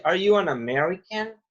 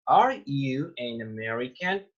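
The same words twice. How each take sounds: First: Said in the usual way. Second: "Are you an American?" drawn out word by word; slow model reading. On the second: Shown as a demonstration. English teacher repeats the question for students, slow model reading.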